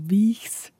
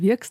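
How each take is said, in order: First: It is said as spelled, with a ch sound. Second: It is said with an r and a k sound. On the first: This is how the written form would suggest reading it. "also Wiechs, quasi geschrieben wird" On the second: This is how the locals actually say it. "Aber wir sagen Wirks dazu"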